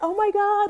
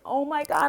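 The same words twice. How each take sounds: First: It sounds excited and happy. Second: It sounds dismayed and self-critical.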